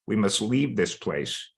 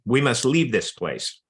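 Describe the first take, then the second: First: Real, understated emotion while reading; a little emotional. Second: Said in the usual way. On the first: Real, not acted. Reader moved by Foxy G's plea to flee, a little emotional. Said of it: "I get a little emotional reading this story".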